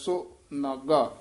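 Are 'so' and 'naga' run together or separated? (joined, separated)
separated. The two parts are said as separate words. "इह पाठ वखरा कराया जांदा है। सो नागा इउं उच्चारण करना है"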